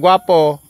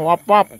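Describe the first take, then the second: First: The word is pronounced in full, clearly. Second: The word is clipped and garbled into wapwap.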